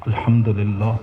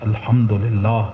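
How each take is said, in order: The two takes are said the same way.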